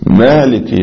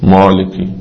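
First: The m sound is light and short. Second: The m sound is heavy and drawn out. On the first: The speaker calls it right. "هي ميم خفيفة" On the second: The speaker calls it wrong. "لا"

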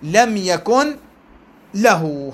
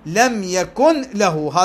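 First: There is a pause before the last word. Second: The words run together without a pause. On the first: "هذا وقف" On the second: "هذا وصيل"

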